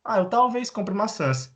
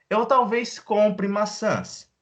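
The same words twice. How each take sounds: First: Higher, conversational answer; light acted reply; mock casual reply. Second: Higher, slower model sentence; bright slow example; raised slow example. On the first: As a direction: answer a friend casually, pitched up. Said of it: "Ah, você vai no mercado?". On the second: Shown as a demonstration. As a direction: lift it up and slow down. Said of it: "model sentence, raised".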